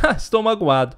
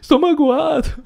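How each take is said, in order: First: It is said lightly, in a casual voice. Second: It is said in a tearful, crying voice.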